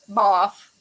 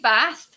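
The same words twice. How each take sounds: First: The word is said in a posh English accent. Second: The word is said in a plain, non-posh accent. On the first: "you can always say it in the posh English voice" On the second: "I say bath"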